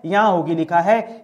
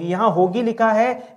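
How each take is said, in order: First: यहाँ pushed forward, the rest dropping lower; stress on यहाँ. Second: Slow, with लिखा lifted and rising at the end; stress on लिखा. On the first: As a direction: hit यहाँ first, then let it fall. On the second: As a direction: lean on लिखा, unhurried. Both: Shown as a demonstration.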